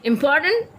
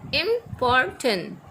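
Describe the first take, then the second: First: Said in the usual way. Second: Important stretched slowly, im-por-tant, each syllable apart; slowly drawn out by syllable. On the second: Shown as a demonstration. Teacher showing students the syllables, slow and drawn out. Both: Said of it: "they are consisted of three syllable".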